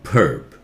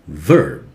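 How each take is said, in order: First: The first sound is made with both lips. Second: The first sound uses the lower lip and teeth. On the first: The speaker calls it wrong. "Do not touch your lips together. Not verb" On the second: The speaker calls it right. "your lower lip has to touch the upper teeth"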